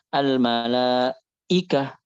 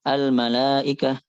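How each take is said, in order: First: The glottal stop is heavy and overdone. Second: The glottal stop is softened toward a vowel. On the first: "Dibacanya al malaikah itu enggak boleh" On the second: "hamzanya ngawang gitu... tashil. Jangan sampai dibaca"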